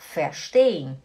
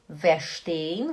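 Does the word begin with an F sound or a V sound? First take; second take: F sound; V sound. First: The word begins with a voiceless F sound. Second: The word begins with a voiced V sound. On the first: The speaker calls it right. "você fala verstehen" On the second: The speaker calls it wrong. "Você não fala verstehen"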